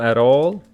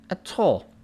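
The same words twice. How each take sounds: First: It is said in an American accent. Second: It is said in a British accent. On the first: "Americans go at all" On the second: "but he says at all"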